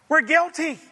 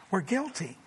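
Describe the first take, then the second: First: Higher and louder, pressing the verdict home; forceful declaration. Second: Much softer, sinking "We're guilty"; soft confession. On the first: Preacher to congregation, forceful declaration. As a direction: declare "We're guilty" loud, "guilty" falling. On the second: Preacher to congregation, soft sober confession. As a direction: let "We're guilty" drop to a hushed, falling close. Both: Real, not acted.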